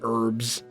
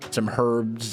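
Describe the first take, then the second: First: The word begins without an H sound. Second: The word begins with an H sound.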